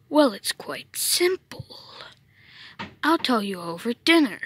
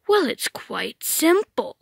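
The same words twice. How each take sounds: First: Hushed reply. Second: Said in the usual way. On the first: Acted. Meta Knight whispers explanation.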